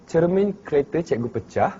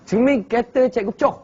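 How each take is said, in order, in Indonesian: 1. Ini diucapkan dalam bahasa Melayu Kuala Lumpur. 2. Ini diucapkan dalam dialek Terengganu. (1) "kalau dia kata cermin kereta cikgu pecah" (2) "Kita dalam bahasa Terengganu kita boleh tukar"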